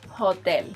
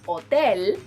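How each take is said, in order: First: The word starts with an h sound. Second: The word starts without an h sound. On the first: The speaker calls it wrong. "instead of hotel" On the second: The speaker calls it right. "Say hotel"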